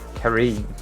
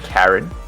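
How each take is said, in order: First: The name ends with a long 'een' sound. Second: The name is said like the common name Karen. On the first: The speaker calls it right. "That's how you say it" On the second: The speaker calls it wrong. "It's not it's not Karen"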